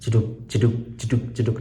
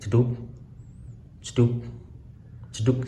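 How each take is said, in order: First: The beat sound is repeated quickly. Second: The beat sound is repeated slowly. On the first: This is the baby's heartbeat. "suaranya lebih cepat. Jadi kayak jeduk" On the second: This is the mother's pulse. "suaranya pelan seperti jeduk"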